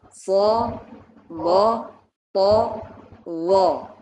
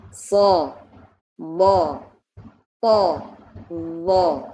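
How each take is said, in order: The two takes are said the same way.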